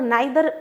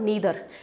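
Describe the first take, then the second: First: The first vowel sounds like 'eye'. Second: The first vowel sounds like 'ee'. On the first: The speaker calls it wrong. "पुरानी English में इनको आइदर और नाइदर pronounce किया जाता था, जो कि गलत है" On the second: The speaker calls it right. "आपको इनको बोलना है ईदर और नीदर"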